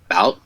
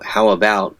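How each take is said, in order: First: Only the final syllable 'bout' is said. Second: Both words are said in full. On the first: "might just come out as bout" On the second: "phrases like, you know"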